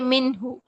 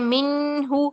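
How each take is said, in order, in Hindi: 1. n को साफ़ और जल्दी बोला जाता है। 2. n को नाक की लंबी गुनगुनाहट के साथ खींचा जाता है। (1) "जाहिर करके नून की आवाज बस एक सेकंड में पढ़ के" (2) "ऐसा नहीं करेंगे"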